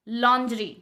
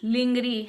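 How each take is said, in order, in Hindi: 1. शब्द की शुरुआत 'lon' की आवाज़ से होती है। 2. शब्द की शुरुआत 'ling' की आवाज़ से होती है। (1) "दैट इज कॉल्ड लॉन्ड्री" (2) "जैसे हम कई बार बोलते हैं लिंगरी लिंगरी लिंगरी"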